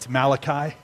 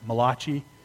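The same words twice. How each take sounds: First: The name is given a plain English pronunciation. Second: The name is given an Italian-sounding pronunciation. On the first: The speaker calls it right. "It's Malachi" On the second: The speaker calls it wrong. "Some people pronounce it Malachi. He was not an Italian prophet"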